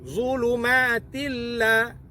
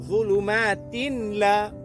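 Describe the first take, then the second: First: The n sound merges fully into the l. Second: The n sound is pronounced clearly before the l. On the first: The speaker calls it right. "sepatutnya ialah idgham bila gunnah" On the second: The speaker calls it wrong. "Tetapi dia izharkan. ... Menjadi kesalahan"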